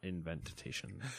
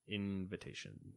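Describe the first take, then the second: First: The second syllable sounds like 'ven'. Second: The second syllable sounds like 'vi'. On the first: The speaker calls it wrong. "not inventation" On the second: The speaker calls it right.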